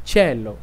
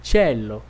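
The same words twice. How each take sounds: No difference in how they are said.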